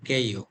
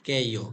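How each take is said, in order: First: The syllable begins with a tense k sound. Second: The syllable begins with a tense k sound.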